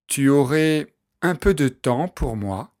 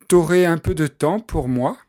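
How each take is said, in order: First: The pronoun tu is said in full. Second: The pronoun is shortened to t' before aurais. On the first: This is the standard form. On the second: This is casual everyday speech.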